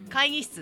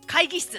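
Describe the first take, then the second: First: The middle 'g' is a soft nasal sound. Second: The middle 'g' is a hard, plain stop. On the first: It sounds gentle. The speaker calls it right. "会議室っていうと柔らかいじゃん" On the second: It sounds stiff. The speaker calls it wrong. "会議室っていうと硬いじゃん"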